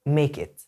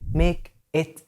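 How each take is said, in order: First: The two words run together as one word. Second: The two words are said separately.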